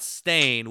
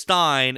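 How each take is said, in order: First: The vowel sounds like 'stain'. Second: The vowel sounds like 'stine'. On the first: This is how the name is actually spelled. The speaker calls it right. "It's S-T-A-I-N" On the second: This is how people remember the name. The speaker calls it wrong. "It was Stein and not Stain"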